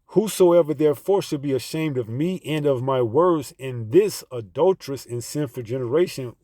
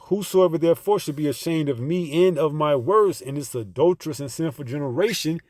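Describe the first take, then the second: First: It is read a little more slowly. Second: It is read at a normal speed.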